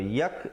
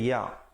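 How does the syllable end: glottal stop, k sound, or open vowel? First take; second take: k sound; open vowel. First: The syllable ends with a k sound. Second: The syllable ends on an open vowel. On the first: The speaker calls it wrong. "Kalau yak jadi huruf kaf" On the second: The speaker calls it right. "bacaannya ya"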